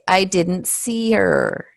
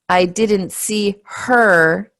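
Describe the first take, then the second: First: The H at the start of 'her' is dropped. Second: The H at the start of 'her' is pronounced. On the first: The speaker calls it right. "And there's no H there" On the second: The speaker calls it wrong. "we don't say"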